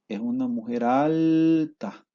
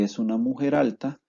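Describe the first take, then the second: First: The stressed vowels are drawn out long. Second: The stressed vowels are kept short and plain. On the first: "la vocal tónica se alarga" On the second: "en vez de"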